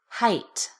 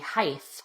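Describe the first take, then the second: First: The word ends with a 't' sound. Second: The word ends with a 'th' sound. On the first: The speaker calls it right. "Say height with a T" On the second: The speaker calls it wrong. "Do not say height with a T H"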